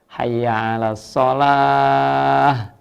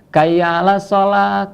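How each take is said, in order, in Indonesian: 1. Kata pertama diawali dengan bunyi H. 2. Kata pertama diawali dengan bunyi K. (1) "hurufnya yang jelas" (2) "bukan huruf H tapi huruf K diganti K"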